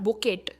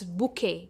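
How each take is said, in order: First: A t sound is pronounced at the end. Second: The word ends without any t sound. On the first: The speaker calls it wrong. "Not बुकेट" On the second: The speaker calls it right. "It's बुके"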